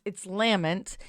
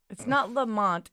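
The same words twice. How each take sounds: First: "Lament" said like the word lament; correct pronunciation. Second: "Lamont" with an "mont" ending; wrong pronunciation. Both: Shown as a demonstration. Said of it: "it's not Lamont, it's Lament".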